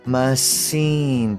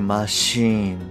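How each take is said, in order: First: The word begins with a plain s sound. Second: The word begins with an sh sound. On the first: The speaker calls it wrong. "ではなくて" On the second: The speaker calls it right. "死のまま発音されるもの"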